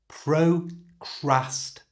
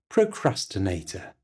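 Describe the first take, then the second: First: It is said slowly and carefully. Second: It is said at normal speed.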